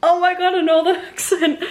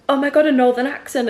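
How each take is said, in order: First: High, delighted echo breaking into a laugh; excited echo. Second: A touch of surprised delight, a little higher; mildly excited stranger. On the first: Replying to a fellow northerner at the cinema, excited. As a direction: throw the excitement straight back, much higher, laughing. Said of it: "And I was like". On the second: Cinema stranger hearing a fellow northerner, mildly excited. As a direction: lightly voice someone thrilled by an accent. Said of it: "she was like". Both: Retold or imitated.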